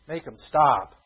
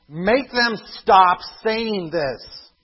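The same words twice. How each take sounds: First: Said in the usual way. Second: High, loud, very slow demand; loud indignant demand. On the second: Acted. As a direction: push the order out slowly, outraged. Quoted Pharisee demand, loud take.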